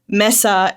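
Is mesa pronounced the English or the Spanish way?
Spanish. It is pronounced with Spanish sounds. "I said mesa ... it's literally a spanish spanish word"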